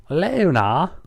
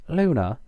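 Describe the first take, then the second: First: Louder, rising earnest call of Luna; earnestly. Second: Said in the usual way. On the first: Shown as a demonstration. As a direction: plead with her by name. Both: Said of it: "Twilight said earnestly".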